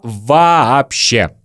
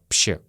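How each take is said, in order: First: The word is said in full with all syllables. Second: The word is squeezed into one short syllable. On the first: "Следующее слово вообще" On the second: "Мы очень часто произносим как"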